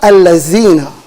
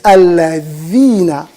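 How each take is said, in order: First: The middle consonant is a z sound. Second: The middle consonant is a th sound. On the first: The speaker calls it wrong. "Either they say الَّذِينَ with a zai" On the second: The speaker calls it right. "they can't pronounce the that"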